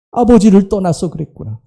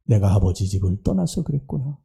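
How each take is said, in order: First: Said in the usual way. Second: Much lower, softer dawning realization; quiet realization. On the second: Acted. Prodigal son realizing why he fell, softly. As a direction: let it dawn on him softly.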